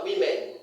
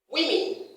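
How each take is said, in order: First: WOMEN as wi-MEN, full e at the end; women with an unreduced second vowel; wrong pronunciation. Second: WOMEN as WIM-in, high falling first syllable; women with a reduced ending; correct pronunciation. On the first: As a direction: say women ending like the word men. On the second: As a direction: say women as wimmin, short i twice. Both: Shown as a demonstration. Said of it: "not women".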